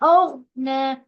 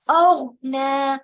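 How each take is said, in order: No difference in how they are said.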